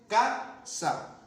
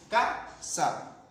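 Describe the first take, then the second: First: Casa said higher, first syllable CA pushed hard; casa with a raised, pushed first syllable CA; stress on CAsa. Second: Said in the usual way. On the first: Shown as a demonstration. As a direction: lean on the CA of casa. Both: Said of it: "Aquí recae la mayor fuerza de voz".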